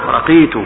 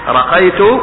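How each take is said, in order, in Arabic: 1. المقطع الثاني فيه حركة كسرة. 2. المقطع الثاني فيه حركة فتحة. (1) "بفتح الراء وكسر القاف أي صعدت" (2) "رقيت أرقي رقية"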